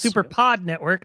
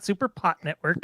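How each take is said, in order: First: The second syllable ends with a D sound. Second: The second syllable ends with a T sound. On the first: The speaker calls it right. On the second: The speaker calls it wrong. "not SuperPot Network. I'm sorry"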